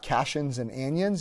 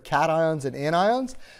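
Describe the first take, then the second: First: The words are pronounced the way they look. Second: The words are given their standard pronunciation. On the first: The speaker calls it wrong. "They're not cations and anions, even though it sort of looks that way pronunciation-wise" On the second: The speaker calls it right. "it's really important to me that you actually call them properly"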